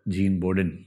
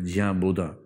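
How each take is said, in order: First: The name ends with a clear -din syllable. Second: The name ends in a nasal vowel, no final n.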